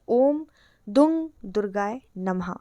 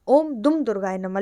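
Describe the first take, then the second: First: The second word ends in an ng sound. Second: The second word ends in an m sound. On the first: The speaker calls it right. "इसका जो सही उच्चारण है वो है" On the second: The speaker calls it wrong. "कुछ लोग इस मंत्र को दुम पढ़ते हैं"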